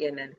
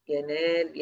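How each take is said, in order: First: ينال said as yanal with a short a; short second vowel in ينال, closing on l; shortened middle vowel. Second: ينال with a long drawn aa; long middle vowel. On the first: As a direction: cut the aa of ينال to a brief fatha. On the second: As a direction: stretch the aa in ينال before the l. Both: Shown as a demonstration. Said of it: "أنا بحذف ده منعًا لالتقاء الساكنين".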